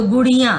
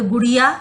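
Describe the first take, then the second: First: "गुड़िया" with a nasal final vowel; nasalised ending. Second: Said in the usual way. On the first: Shown as a demonstration. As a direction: end "गुड़िया" through the nose, as आँ. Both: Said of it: "नाक से जो उच्चारण हो".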